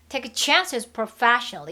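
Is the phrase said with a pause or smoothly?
smoothly. The phrase runs on without a break.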